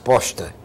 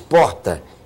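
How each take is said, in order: First: It is said with an S before the T. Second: It is said with an R before the T. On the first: "diz posta. Ele bota um S no lugar do R" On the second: "Ele não diz porta"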